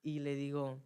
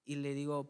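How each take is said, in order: Both takes have the same delivery.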